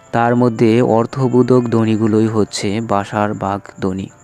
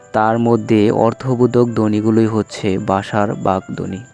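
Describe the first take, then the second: Both takes have the same delivery.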